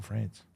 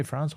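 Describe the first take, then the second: First: "France" with a short raised a; other pronunciation of France. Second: "France" with an open vowel; one pronunciation of France. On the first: Asking which way she says France, short raised vowel. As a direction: say "France" close to "Frence". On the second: Asking which way she says France, open vowel. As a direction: say "France" the first of two ways. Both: Shown as a demonstration. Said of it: "Do you say France or France?".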